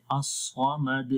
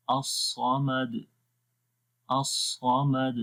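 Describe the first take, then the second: First: 「الصمد」の最後にハムザの詰まりを付けて、ゆっくり; slow الصمد ending in a glottal catch; wrong hamza ending. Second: 「الصمد」の最後のدを軽く弾く、ゆっくり; slow الصمد with a clean bounced د; correct qalqala ending. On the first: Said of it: "تو یہ تھوڑا سا غلط ہو جاتا ہے". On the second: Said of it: "آخر میں قلقلہ کی آواز آئے". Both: Shown as a demonstration.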